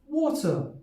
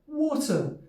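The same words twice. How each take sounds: First: It is said in a British RP accent. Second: It is said in a British RP accent.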